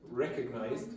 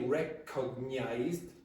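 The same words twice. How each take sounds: First: The word is said in a reduced, connected form. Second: The word is said in its full, careful form.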